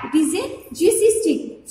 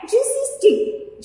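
First: Said in the usual way. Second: Juicy drawn out high and slow; stressed new word. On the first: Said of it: "Juicy stick means". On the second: Shown as a demonstration. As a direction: lift and stretch the word juicy for students. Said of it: "Juicy stick means that stick will be full of juicy".

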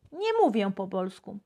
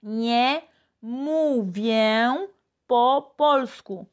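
First: Said in the usual way. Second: Very slow, each word of "Nie mówię po polsku" given its own space; slow teacher demo; slow model phrase. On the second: Shown as a demonstration. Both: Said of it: "hicimos la frase número tres".

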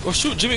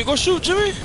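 First: Higher, pressing call; rising urgency; urgent. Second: Much higher, almost shrieked; yelled urging. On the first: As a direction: push him to act now. Urging teammate to shoot. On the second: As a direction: scream at him to shoot. Urging teammate to shoot, louder. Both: Real, not acted.

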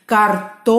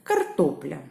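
First: Картопля called loudly with a long stretched ТО; calling out. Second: Said in the usual way. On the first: Shown as a demonstration. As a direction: hold the second syllable of картопля high and loud. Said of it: "Гукаємо". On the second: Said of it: "треба слово погукати".

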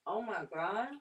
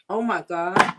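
First: Hushed savoring. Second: Delighted exclamation. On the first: Repeats it, savoring the bite. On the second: Tasting the clam, delighted. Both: Real, not acted.

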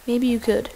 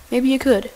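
Both takes have the same delivery.

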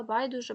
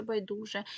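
First: Байдуже stressed on БАЙ, the first syllable. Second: Байдуже stressed on ДУ, the second syllable. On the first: Teacher showing students a double stress, байдуже stressed on БАЙ. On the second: Teacher showing students the other allowed stress, байдуже stressed on ДУ. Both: Shown as a demonstration. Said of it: "які мають подвійний".

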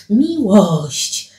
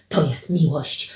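First: Fuller, drawn-out exclamation; exclaimed repeat. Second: Low, soft statement; hushed declaration. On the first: Alicja repeats it to Paweł, exclaiming. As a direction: lift the word out and let it fall. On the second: Alicja tells Paweł what love is, low and hushed. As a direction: drop the voice to declare it. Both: Acted.

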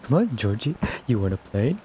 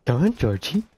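First: Lightly voiced creepy clown; a hint of a sinister clown. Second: Lightly voiced creepy clown; a hint of a sinister clown; Pennywise voice. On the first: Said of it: "You sound like you're one". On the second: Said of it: "You have a great clown voice".

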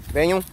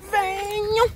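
First: Said in the usual way. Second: "Venham" sung much higher, drawn out; high cooing call to the dogs; high sing-song call. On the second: Real, not acted. Calling the dogs, repeated.

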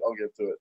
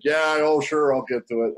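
First: Softer, lower trailing repeat; fading mumble. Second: Casual promise to the wife; breezy brush-off. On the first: Husband brushing off wife, mumbled into nothing. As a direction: let it die away unconvinced. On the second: Husband brushing off wife's nagging, breezy. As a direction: toss it off easily. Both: Retold or imitated. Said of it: "Pardeep's like".

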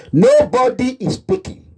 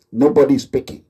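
First: Nobody said high, rising and stretched; emphatic repeat. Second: Said in the usual way. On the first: Real, not acted. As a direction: lift Nobody up and stretch it out in protest.

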